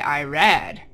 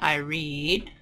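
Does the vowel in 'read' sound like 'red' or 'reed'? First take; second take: red; reed. First: The vowel is short, as in 'red'. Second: The vowel is long, as in 'reed'. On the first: The action happened in the past. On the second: The action happens now or habitually.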